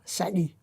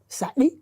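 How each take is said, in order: First: The word is said on a low tone. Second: The word goes from low to high tone. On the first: The word stands alone, with nothing after it. "il est à ton bas" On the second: A low tone follows the word. "j'ai bas haut"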